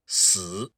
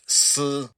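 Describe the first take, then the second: First: The syllable is said with the third tone. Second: The syllable is said with the first tone. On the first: It means death. "if you were to pronounce that with the third tone" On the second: It means silk or a thread. "in the first tone, that would be pronounced S"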